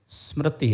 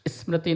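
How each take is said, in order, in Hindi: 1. यह सीधे s ध्वनि से शुरू होता है। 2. s से पहले छोटा इ स्वर आता है। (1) "स्मृति है" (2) "स्मृति नहीं है"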